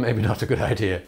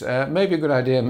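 First: Quick self-mocking laugh through the words; laughing aside at yourself. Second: Said in the usual way. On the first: Real, not acted. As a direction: chuckle it off, a bit faster.

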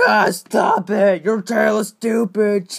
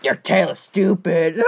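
First: Loud angry shouted taunt; shouting. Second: Said in the usual way. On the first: Acted. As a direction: yell the insult out.

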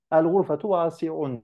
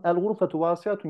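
First: "vasiun" high and marked as the error; wrong version. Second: Said in the usual way. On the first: Shown as a demonstration. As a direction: sound out "vasiun" as the student's mistake. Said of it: "sıfır verdi". (öğrencinin hatası olarak "vasiun" kelimesini yüksek perdeden vurgula) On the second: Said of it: "Sen ne yazdın?".

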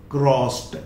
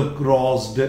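First: क्रॉस्ड said as "krost"; final t sound. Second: क्रॉस्ड said wrongly as "krozd"; wrong voiced ending. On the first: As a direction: end क्रॉस्ड on a voiceless t. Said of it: "ED जोड़ा, क्या बोला?". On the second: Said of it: "not crossed". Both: Shown as a demonstration.

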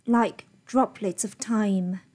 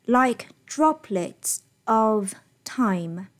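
First: "droplets of" run together, "of" weak; linked DROPLETS OF. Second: Very slow, "droplets", "of", "time" separated; unlinked DROPLETS OF. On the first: Teacher models natural reading with feeling, linked "droplets of time". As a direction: glide from "droplets" into a reduced "of". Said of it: "应该是这样子". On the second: Teacher repeats what the student read, word-by-word "droplets of time". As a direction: give "of" its own full beat, unlinked. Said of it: "他念的是". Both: Shown as a demonstration.

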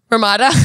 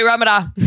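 First: Ramada with the middle stressed, ruh-MAH-duh; stress on second syllable. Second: Ramada with the first syllable stressed, RAM-uh-duh. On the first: Questioning the hotel name, Ramada stressed on its second syllable. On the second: Trying out the hotel name, Ramada stressed on its first syllable. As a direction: punch the opening of Ramada, RAH-muh-duh. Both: Shown as a demonstration. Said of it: "Is it Ramada or Ramada?".

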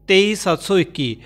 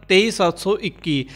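The two takes are said the same way.

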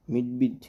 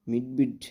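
Both takes have the same delivery.

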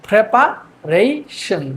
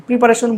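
First: প্রিপারেশন slowly as prepa, rei, shon; corrected pronunciation. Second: প্রিপারেশন run together with a "pri" start; everyday pronunciation. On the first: Teacher gives the form to use from today, প্রিপারেশন slowly syllabified. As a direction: open with "pre", pause between each chunk. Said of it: "আজকে থেকে আমরা এটাকে বলবো". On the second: Teacher asks whether to keep the old form, casual run-together প্রিপারেশন. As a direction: say প্রিপারেশন quickly as one unbroken word. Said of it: "কি আর কি প্রিপারেশন বলবো". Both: Shown as a demonstration.

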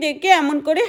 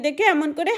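The two takes are said the same way.

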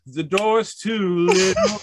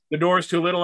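First: Sung, slow, drawn-out sing-song line with a rising end; mock singing. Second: Said in the usual way. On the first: Shown as a demonstration. Sung, joking to Chris, slow mock sing-song. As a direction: sing it out slow like a silly tune. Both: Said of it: "that's exactly how I sing".

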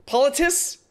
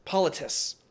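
First: Politis? said as a rising question; testing Politis? with a questioning lift; first guess at Politis?; unsure try at a name. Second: Politis. said with a final falling tune; Politis. as a quiet settled answer; settled try at a name. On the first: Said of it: "Pol-, polis-, politices?". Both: Real, not acted.

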